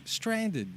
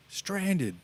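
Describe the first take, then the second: First: Even higher repeat of the Walken line; Christopher Walken. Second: High, clipped one-word Walken impression; Christopher Walken. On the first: Retold or imitated. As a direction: say "Stranded" again, pitched way up, deadpan. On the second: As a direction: say it flatly puzzled, Walken-style, much higher. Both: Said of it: "he does it in Christopher Walken's voice".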